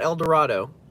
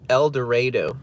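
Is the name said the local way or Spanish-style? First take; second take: Spanish-style; local. First: The name gets a Spanish-style pronunciation. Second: The name gets the local pronunciation. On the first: This is how the name is written, not how it is said there. The speaker calls it wrong. "not El Dorado. Even though it's spelled El Dorado" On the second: This is how people who live there say it. The speaker calls it right. "the locals pronounce it El Dorado"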